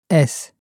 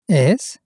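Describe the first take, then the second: First: The voice falls at the end. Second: The voice rises at the end.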